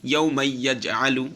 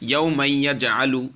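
Both takes have the same delivery.

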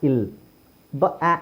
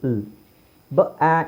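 Both takes have the same delivery.

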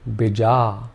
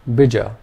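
First: Only the second vowel is long. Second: Both vowels are short. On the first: "if we made the second vowel sound long" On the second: "Both the vowel sounds are short"

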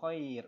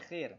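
First: It is said in standard classical Arabic style. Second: It is said in Egyptian colloquial style. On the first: The speaker calls it right. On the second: The speaker calls it wrong. "bukan khair"

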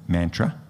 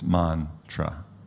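First: It is said with an Australian accent. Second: It is said the original Sanskrit way.

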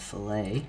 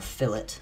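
First: It is pronounced like the fish dish. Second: It is pronounced unlike the fish dish. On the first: The speaker calls it wrong. "I keep saying fillet, like a fillet of fish" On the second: The speaker calls it right. "or fillet, sorry"

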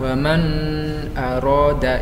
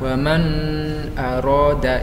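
First: The n sound is blurred and indistinct. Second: The same.

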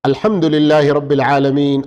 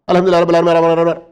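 First: It is recited slowly with clear letters. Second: It is recited very fast and hurried. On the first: The speaker calls it right. "స్పష్టంగా అక్షరాలను ఉచ్చరించాలి. మరీ వేగంగా ఉండకూడదు" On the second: The speaker calls it wrong. "వేగంగా, స్పీడ్గా ... కొందరు ఇలా చదువుతూ ఉంటారు"

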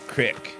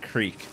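First: The word has a short 'i' vowel. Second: The word has a long 'ee' vowel. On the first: This is how the game says it. "in this game they call it crick" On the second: This is how the speaker usually says it. "I've always pronounced it creek"

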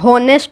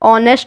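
First: The word begins with an h sound. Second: The word begins with a vowel sound. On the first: The speaker calls it wrong. "इसको हम होनेस्ट नहीं बोलते" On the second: The speaker calls it right. "इसको हम ऑनेस्ट बोलते हैं"

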